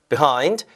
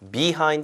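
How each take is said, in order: First: The first syllable is weakened, stress on the second. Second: The first syllable is said fully. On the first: The speaker calls it right. "이렇게 약간 약화되죠. 강세가 이음절을 가니까요" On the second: The speaker calls it wrong. "behind가 아니라"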